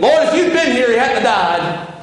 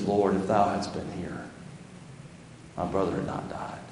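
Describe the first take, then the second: First: Much higher and louder, then slowing down; raised, reproachful grieving sister; accusing complaint. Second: Much softer, fading to a whisper; hushed, reverent grieving sister; worshipful whisper. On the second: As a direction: breathe it out in humble surrender. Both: Acted. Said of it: "the different spirit between those two women".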